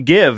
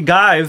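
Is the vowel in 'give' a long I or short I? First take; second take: short I; long I. First: The vowel is a short i, as in 'live'. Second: The vowel is a long i, as in 'dive'. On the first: This is the normal way the word is said. The speaker calls it right. "Especially when you say give" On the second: This follows the spelling rule but is not how people say it. The speaker calls it wrong. "It makes it an I sound"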